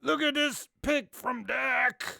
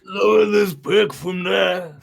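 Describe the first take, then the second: First: Slow, rough gravelly delivery. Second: Rough gravel-voiced shout, slow; gravelly voice. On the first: Pretend. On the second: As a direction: bark it out gritty and strained. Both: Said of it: "with the most gravelly voice you can".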